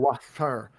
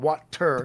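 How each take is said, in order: First: The T in the middle is a soft th-like sound. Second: The T in the middle is a hard T. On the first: "a T H sound somewhere" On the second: "the hard T"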